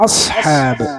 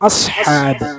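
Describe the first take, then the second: No difference in how they are said.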